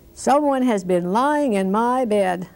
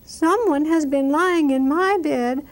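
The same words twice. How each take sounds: First: It is said in a great big voice. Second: It is said in a little baby voice.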